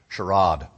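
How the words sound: It is said in a British accent.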